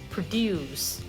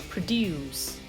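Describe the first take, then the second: First: The stress is on the second syllable. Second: The same.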